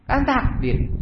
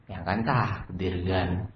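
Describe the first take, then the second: First: High, falling little protest; put-on high voice; high-pitched excuse. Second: Low, soft, slow placating reply; subdued servant's mumbled excuse; meek excuse. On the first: Excuse thrown back, pitched high. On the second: Acted. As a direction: offer fate as a timid defence. Servant excuses himself to boss.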